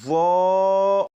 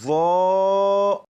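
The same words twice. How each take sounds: First: The letter is sounded thick and heavy. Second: The same.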